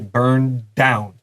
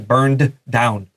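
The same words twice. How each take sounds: First: The two d sounds are linked together. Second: The two d sounds are said separately. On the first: "Usually we just say burned down. 这连在一起。" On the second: "it's really hard to say"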